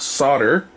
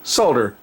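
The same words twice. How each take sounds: First: The L sound is left silent. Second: The L sound is clearly pronounced. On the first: The speaker calls it wrong. "trying to tell me it's solder" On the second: The speaker calls it right. "The proper way is solder with an L"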